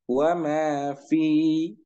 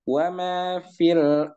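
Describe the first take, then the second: First: The vowel is held long before a stop. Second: The vowel is short, linked into the next word. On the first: The reader stops after this word. "Maka fi-nya dibaca panjang dengan dua harokat" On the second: The reader continues into the next word. "Ini dibaca tidak panjang"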